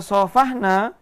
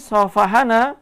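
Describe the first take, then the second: First: The h runs straight into the n, no vowel. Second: An a vowel sits between the h and the n. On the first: We are the ones who shook hands. "Kalau kita baca shafahna, maka nanya ini menjadi fa'il" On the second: Someone shook hands with us. "shafahana yang haknya berharokat fathah"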